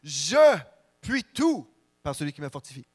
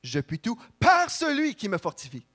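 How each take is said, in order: First: The stress is on "je". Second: The stress is on "celui qui me fortifie".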